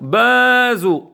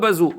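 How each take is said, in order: First: The stress is on the first syllable. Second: The stress is on the last syllable. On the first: The speaker calls it right. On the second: The speaker calls it wrong. "on ne dit pas et Wilim Bazou. Non, pas Bazou"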